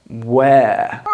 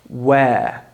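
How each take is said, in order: Both takes have the same delivery.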